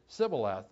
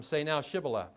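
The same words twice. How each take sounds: First: "Sibboleth" opening on S, with no H; mispronunciation. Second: SHIBBOLETH with a clear SH at the start; correct pronunciation. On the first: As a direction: drop the H so it starts SIB. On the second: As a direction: say "Shibboleth" with the proper SH. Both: Acted. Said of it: "he could not pronounce it correctly".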